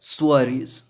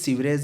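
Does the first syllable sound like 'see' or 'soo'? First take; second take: soo; see. First: The first syllable sounds like 'soo'. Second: The first syllable sounds like 'see'. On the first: The speaker calls it right. "उसका correct pronunciation है सुअरीज" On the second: The speaker calls it wrong. "वो भी सीवरेज नहीं है"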